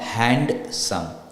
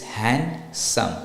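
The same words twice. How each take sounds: First: The D in the middle is sounded. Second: The D in the middle is silent. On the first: The speaker calls it wrong. "not handsome" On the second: The speaker calls it right. "It's handsome, ... the D is silent"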